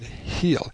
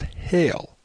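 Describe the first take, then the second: First: The vowel sounds like the one in 'heel'. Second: The vowel sounds like the one in 'hail'. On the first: The speaker calls it right. "the pronunciation heel is the correct one" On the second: The speaker calls it wrong. "it is stated that the word is pronounced hail"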